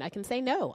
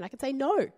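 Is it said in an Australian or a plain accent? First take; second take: plain; Australian. First: It is said in her plain accent. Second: It is said in an Australian accent.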